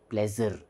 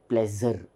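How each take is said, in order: Both takes have the same delivery.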